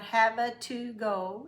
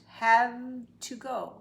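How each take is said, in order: First: An extra uh vowel follows the v sound. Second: The v links straight into the next word. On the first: The speaker calls it wrong. "It's not" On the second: The speaker calls it right.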